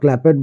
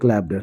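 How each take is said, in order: First: The ending is an extra ed syllable. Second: The ending is a short t sound. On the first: The speaker calls it wrong. "अगर आप क्लैपेड और क्लैपेड बोलते हैं तो definitely ये आपका wrong होगा" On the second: The speaker calls it right. "क्लैप की ही बात करें तो क्लैप्ड क्लैप्ड"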